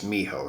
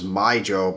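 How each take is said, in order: First: The middle consonant is an h sound. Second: The middle consonant is a j sound. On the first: This is how it is actually said. The speaker calls it right. "I did find out it's Miho" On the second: This is how the speaker used to say it. The speaker calls it wrong. "I always thought it was Mijo"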